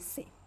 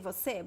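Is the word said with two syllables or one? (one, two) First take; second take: one; two. First: The word is shortened to a single syllable. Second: The word is said in full with two syllables. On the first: The word is said inside a natural sentence. "if I say a sentence, many times, ... I'm just going to say se" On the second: The word is said on its own. "If I say just the word, I'm going to say você"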